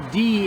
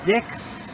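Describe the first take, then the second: First: The word ends without a final x sound. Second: The word ends with a clear x sound. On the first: The speaker calls it right. "is how it's correctly pronounced" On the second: The speaker calls it wrong. "It was mispronounced as Dix"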